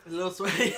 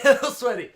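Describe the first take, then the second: First: Said in the usual way. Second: Laughing loudly through the words. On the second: Real, not acted. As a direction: burst out laughing as you repeat it. Laughing repeat of the phrase.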